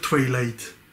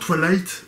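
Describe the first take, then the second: First: The word is said in its careful, full form. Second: The word is said in a quick, shortcut way. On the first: This is the pronunciation that should be used. The speaker calls it right. "au lieu de dire Twilight" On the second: This is the habitual shortcut pronunciation. The speaker calls it wrong. "je dis toujours Twilight"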